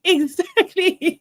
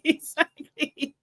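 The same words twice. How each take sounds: First: Drawn-out laughing exactly. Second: Said in the usual way. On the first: Real, not acted. Host laughing in agreement with a viewer. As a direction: stretch it through a laugh.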